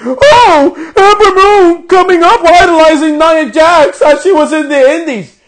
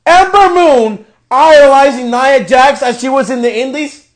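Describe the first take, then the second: First: Higher, louder hammed-up announcer voice, wailing; mocking commentator. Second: Disbelieving question, rising at the end; incredulous repeat. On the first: Mocking the commentary team with a hammed-up higher wail. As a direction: ham up the commentary as a mock cry. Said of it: "they have the audacity to fucking say on commentary". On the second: Real, not acted. Repeating the commentary to viewers in outraged disbelief. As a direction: echo it back in disbelief.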